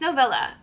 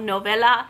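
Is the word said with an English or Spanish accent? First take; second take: English; Spanish. First: The word is said with an English accent. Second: The word is said with a Spanish accent. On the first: The speaker calls it right. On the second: The speaker calls it wrong.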